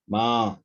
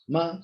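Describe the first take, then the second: First: The pitch falls and then rises. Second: The pitch rises through the word. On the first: "first of all falling and then rising" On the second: "rising tone is here"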